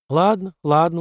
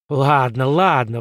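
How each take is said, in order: First: Said in the usual way. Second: Howling. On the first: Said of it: "уступила Карен". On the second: A narrator's reading. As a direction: wail ладно, ладно out in frustration. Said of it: "взвыл Спартак".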